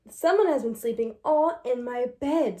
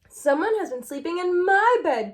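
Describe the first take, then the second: First: It is said in a big, deep voice. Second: It is said in a wee, small voice.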